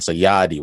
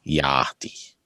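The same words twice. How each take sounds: First: Said in the usual way. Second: Yadi with long open A sounds, yaah-di; enunciating the A's. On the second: Shown as a demonstration. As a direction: stretch the A in Yadi. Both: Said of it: "enunciating the A's".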